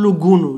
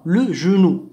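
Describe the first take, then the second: First: لو غونو with a hard g as in go; the mistaken reading غونو with a hard g; wrong hard g. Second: لو جونو with a soft French j, like the s in pleasure; correct soft j. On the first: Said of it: "لا نقول". (النطق الخاطئ غونو بجيم قاهرية) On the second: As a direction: say جونو with ʒ, not a hard g. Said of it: "لا نقول لو غونو". (نطق لو جونو بجيم فرنسية ناعمة) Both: Shown as a demonstration.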